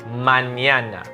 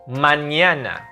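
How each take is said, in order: The two takes are said the same way.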